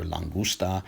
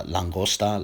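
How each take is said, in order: First: "langusta" with an oo sound and final a; u variant. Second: "langosta" with an open o and final a; Spanish langosta. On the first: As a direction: say "langusta", oo in the middle. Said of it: "or langusta". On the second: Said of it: "this could be". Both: Shown as a demonstration.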